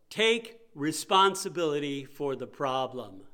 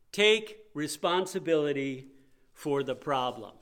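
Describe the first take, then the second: First: Each word pressed home, slowly and firmly; repeated with weight. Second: Said in the usual way. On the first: Shown as a demonstration. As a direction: drive it home for the sleepy congregation.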